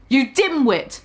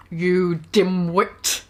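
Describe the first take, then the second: First: Said in the usual way. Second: Low slow retake. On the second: Shown as a demonstration.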